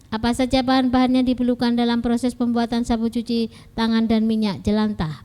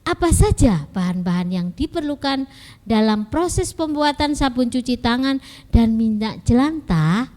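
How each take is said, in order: First: It is read flatly, like a statement. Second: It is read with a questioning intonation. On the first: The speaker calls it wrong. "bukan begitu" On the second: The speaker calls it right. "cara membacanya juga harus ya seperti kalimat pertanyaan"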